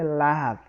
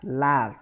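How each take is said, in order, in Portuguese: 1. A vogal soa como A. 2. A vogal soa como A.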